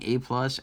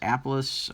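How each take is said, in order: First: It is said as the letter A, then plus. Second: It is said as one blended word, apple-us. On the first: The speaker calls it right. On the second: The speaker calls it wrong.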